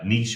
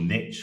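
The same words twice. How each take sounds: First: The word is said the non-American way. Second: The word is said the American way.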